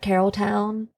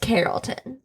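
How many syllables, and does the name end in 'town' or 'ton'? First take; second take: three, town; three, ton. First: Three syllables, ending with a full 'town' sound. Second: Three syllables, ending with a reduced 'ton' sound. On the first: The speaker calls it wrong. "people call it Carrolltown" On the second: The speaker calls it right. "It's Carrollton"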